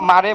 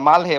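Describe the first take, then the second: First: The middle consonant is a flapped R sound. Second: A full L is said, then a separate 'hae'. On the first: The speaker calls it wrong. "মা- মারে বলে না" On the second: The speaker calls it right. "তখন পুরোটা মালটা ওরা উচ্চারণ করে, তারপর হে বলে"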